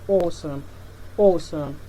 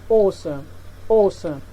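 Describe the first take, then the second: The two takes are said the same way.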